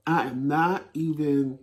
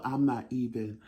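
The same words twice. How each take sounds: First: Slow, leaning hard on "not"; "I am not even", with "not" drawn out and pressed; stress on not. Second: Said in the usual way. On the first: Shown as a demonstration. Correcting herself on the phone, stressing "not".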